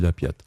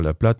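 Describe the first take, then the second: First: The word begins with a 'py' sound. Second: The word begins with a clear 'pl' sound. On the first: This is the local dialect form. The speaker calls it right. "on dit la piatte" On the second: This is the standard French form. The speaker calls it wrong. "On ne dit pas la plate"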